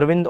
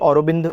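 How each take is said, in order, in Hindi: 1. यह नाम 'ar' से शुरू होता है और 'vind' पर खत्म होता है। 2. यह नाम 'au' से शुरू होता है और 'robind' पर खत्म होता है।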